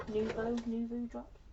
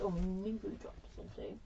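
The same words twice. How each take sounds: First: Nuvo spelled out slowly, each syllable clear; slow, clear naming. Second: Said in the usual way. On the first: Shown as a demonstration. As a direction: say "Nuvo" slowly and deliberately so it is caught.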